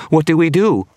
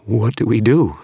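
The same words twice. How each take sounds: First: Panicked shriek, much higher and louder; shaking voice. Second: Frightened, higher and louder; shaking voice. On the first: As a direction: beg for an answer in terror. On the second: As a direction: ask in rising panic. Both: Acted. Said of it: "His voice was shaking".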